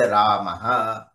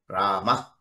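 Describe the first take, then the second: First: It ends with an added 'ha' syllable. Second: It ends in a brief breath, no added vowel. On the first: The speaker calls it wrong. "So to make it easy, say Ramaha" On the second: The speaker calls it right. "Strict pronunciation is Shanti, Rama"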